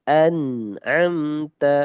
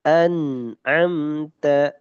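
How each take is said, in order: No difference in how they are said.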